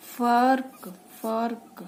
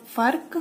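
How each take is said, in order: First: फर्क said as fark, f sound; nukta f. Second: फर्क with ph, pharak; plain ph. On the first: Teacher shows फर्क with nukta f. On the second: Teacher says फर्क with plain ph first. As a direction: say फर्क as phark. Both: Shown as a demonstration. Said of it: "कर्ज की sound ऐसे आएगी".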